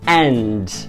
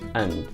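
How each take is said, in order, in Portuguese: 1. A palavra é dita de forma plena e forte. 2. A palavra é dita de forma fraca e reduzida. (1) "que agora eu acabei de pronunciar de uma maneira mais forte" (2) "Tá vendo como que o som fica bem mais fraquinho?"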